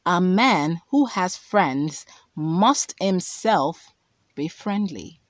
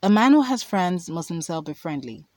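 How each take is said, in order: First: Slow, deliberate scripture quote; quoting scripture slowly. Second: Said in the usual way. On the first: Shown as a demonstration. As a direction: lay the verse out word by word. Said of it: "that says". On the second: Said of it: "Did you hear that?".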